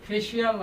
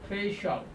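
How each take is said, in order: First: The ending is said as 'shee-al'. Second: The ending is said as 'shal'. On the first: The speaker calls it wrong. "ফেশিয়াল না বলে" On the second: The speaker calls it right. "আমরা বলবো ফেশিয়াল"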